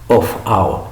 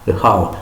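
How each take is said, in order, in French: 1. Le son f de 'of' est bien prononcé. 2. Le son f de 'of' disparaît complètement. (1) "Moi, j'aurais dit of how" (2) "Le F disparaît"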